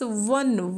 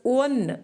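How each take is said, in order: First: The word begins with a consonant w sound. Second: The word begins with a plain vowel sound. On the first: The speaker calls it right. "we should pronounce it as one. Wo, wo" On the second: The speaker calls it wrong. "We shouldn't pronounce it as one"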